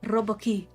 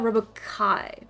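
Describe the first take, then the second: First: The last syllable sounds like 'key'. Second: The last syllable sounds like 'Kyle'. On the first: The speaker calls it wrong. "I'm probably mispronouncing it" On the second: The speaker calls it right. "As in Kyle"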